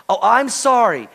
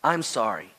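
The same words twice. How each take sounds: First: Higher, louder mock apology; excuse-laden apology. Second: Low, soft, humble apology; sincere apology. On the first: Preacher shows how not to apologize, insincere mock apology. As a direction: apologize insistently, as if an excuse is coming. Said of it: "Don't say". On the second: Preacher models the right way to apologize, low and sincere. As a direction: apologize quietly with no excuse. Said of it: "That's the right way to apologize". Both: Shown as a demonstration.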